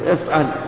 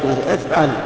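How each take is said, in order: First: It is said forcefully, as an insistent command. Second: It is said in a plain, neutral way. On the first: The instruction is binding and obligatory. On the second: An ordinary instruction is given.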